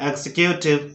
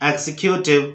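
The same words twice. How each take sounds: The two takes are said the same way.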